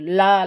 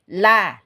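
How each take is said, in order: First: The l sound is thick and heavy. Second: The l sound is thin and light. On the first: The speaker calls it wrong. "Kalau ujungnya nanti jadi tebal. Hurufnya itu jadi tebal" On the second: The speaker calls it right. "Tapi ini"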